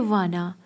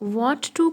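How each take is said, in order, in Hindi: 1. ये दोनों शब्द सिकुड़कर एक छोटा शब्द बन जाते हैं। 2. दोनों शब्द पूरे और अलग-अलग बोले जाते हैं। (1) "वाना थोड़ा सा इजी रहता है" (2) "Want to थोड़ा सा लंबा हो जाता है बोलने में"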